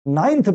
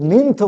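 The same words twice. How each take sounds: First: নাইনথ said with "nine" inside it; long i pronunciation. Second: নিন্থ said as "ninth" with an "ih" vowel; short i mispronunciation. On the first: Teacher giving learners the usual form, properly pronounced. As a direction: say নাইনথ with an "eye" vowel. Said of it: "নাইনথ বলি". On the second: Teacher quoting how others say it, mispronounced. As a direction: say নিন্থ to rhyme with "plinth". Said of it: "নিন্থ বলে". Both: Shown as a demonstration.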